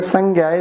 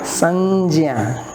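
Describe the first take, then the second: First: The middle consonant is pronounced like 'gy'. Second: The middle consonant is pronounced like 'jy'. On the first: This is how people commonly say it. The speaker calls it wrong. "which we say sangya" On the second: This is the actual pronunciation. The speaker calls it right. "it is actually sanjya"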